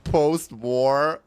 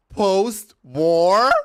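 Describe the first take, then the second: First: Loud, rising incredulous post-war; mock disbelief. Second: Loud, high incredulous cry; shouted disbelief. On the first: Vlogger retelling reply to friend, loud mock disbelief. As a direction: throw it back in disbelief. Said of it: "But I was like". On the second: Real, not acted. Vlogger mocking friend's idea of Berlin, shrieking disbelief.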